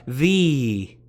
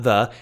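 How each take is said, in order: First: The word is said with strong emphasis. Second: The word is said plainly, without emphasis. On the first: It marks something in a class by itself. "That emph- emphatic the" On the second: It is an ordinary article. "not the"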